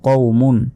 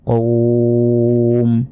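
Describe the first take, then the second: First: The word ends with the full -un ending. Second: The word stops on a bare final consonant.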